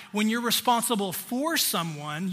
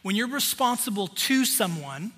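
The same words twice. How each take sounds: First: Responsible FOR someone, with the word for leaned on; teaching a contrast between for and to; stress on for. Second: Responsible TO someone, with the word to leaned on; teaching a contrast between to and for; stress on to. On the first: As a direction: hit the word for to set it against to. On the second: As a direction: hit the word to to set it against for. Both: Shown as a demonstration. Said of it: "Responsible to each other and for each other".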